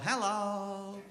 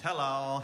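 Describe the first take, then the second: First: Hello pitched well up, lilting; a cheerful high hello to the camera; high sing-song hello. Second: Said in the usual way. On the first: Real, not acted. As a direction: greet the camera brightly up high. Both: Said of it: "we need to say hello".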